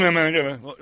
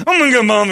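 First: Said in the usual way. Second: Loud, high mock declaration; mock outburst. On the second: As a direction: blurt it out like a joke threat. Host jokingly mocks himself.

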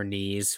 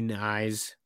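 First: Knees said with a long ee; alternative pronunciation. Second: Knies said to rhyme with "eyes"; alternative pronunciation. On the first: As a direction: say Knees like the body part. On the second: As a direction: say Knies as "nize", with a long i. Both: Shown as a demonstration. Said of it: "however you pronounce it".

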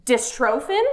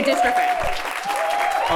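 First: "Dystrophin" as dis-TRO-fin, rising; second-syllable long O. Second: "dystrophin" as DIS-truh-fin; first-syllable stress. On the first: Host queries the rival option, "Dystrophin" as dis-TRO-fin. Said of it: "But a lot of people say". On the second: Host polls audience, "dystrophin" as DIS-truh-fin. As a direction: stress DIS in "dystrophin", middle vowel weak. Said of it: "Clap if you say dystrophin". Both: Shown as a demonstration.

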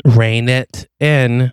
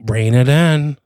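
First: Each word drawn out slowly; slow, emphatic warning. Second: Brief, controlled warning; restrained warning. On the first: Partner insisting the detective keep cover, slow emphatic warning. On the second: Partner warning the detective not to blow cover, brief restrained warning. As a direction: rein in your partner with a short order. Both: Acted.

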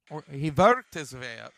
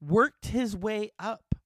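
First: "worked" said as "vorked" with an Austrian V; light Arnold-style Austrian "worked"; Austrian accent. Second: Said in the usual way. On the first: Retold or imitated. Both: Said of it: "He came here from Austria".

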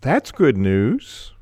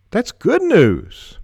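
First: Slow, with "That's" stressed and rising at the start; "That's" stressed, the sentence said slowly. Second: Much higher and louder, slow, "good" punched then falling; excited stress on good. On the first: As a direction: lean on "That's", let "good news" trail. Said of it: "How we emphasize words can change the meaning". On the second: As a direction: hit "good" high and loud with delight. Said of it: "We can change the meaning with our inflection". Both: Shown as a demonstration.

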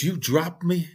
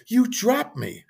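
First: Higher-pitched, imitated disbelief; mock-shocked question, pitched up; incredulous question. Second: Much higher, imitated indignant protest; insistent accusation. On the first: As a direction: ask it like a kid brother who can't believe it. Retold brother's shocked question. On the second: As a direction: repeat it as a high-pitched accusation. Brother repeats the accusation, insisting.

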